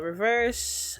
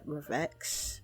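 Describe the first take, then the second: First: The word is said with an 's' sound. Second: The word is said with a 'ks' sound. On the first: The speaker calls it right. "apparently it's Reverse" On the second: The speaker calls it wrong. "I didn't know how to pronounce it at first because the X was right there"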